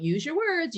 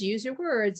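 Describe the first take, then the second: First: Pitched higher, a light teacher singsong; higher mock teacher phrase; mock teacher nag. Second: Said in the usual way. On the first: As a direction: toss it off like a teacher on repeat. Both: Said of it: "just throwing out".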